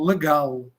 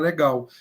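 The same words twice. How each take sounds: First: The final L is pronounced as an L. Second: The final L is pronounced like a U. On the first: This is how people from Portugal say it. "em português de Portugal eles pronunciam o L" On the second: This is how Brazilians say it. "A gente pronuncia o L final como U"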